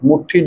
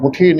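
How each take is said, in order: First: The middle consonant is held long, doubled. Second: The middle consonant is short, not doubled. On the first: The speaker calls it right. "जिवें अद्धक लगा के पाठ करते आपां" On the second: The speaker calls it wrong. "मुट्ठी नहीं"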